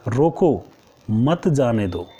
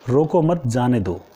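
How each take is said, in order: First: The pause comes after 'रोको'. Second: The pause comes after 'मत'.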